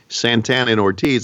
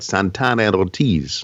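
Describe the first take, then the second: First: The names are said with plain English R sounds. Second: The names are said with rolled, Latin-style R sounds. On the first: "instead of saying" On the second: "a little Latin flair ... I kind of rolled my R's"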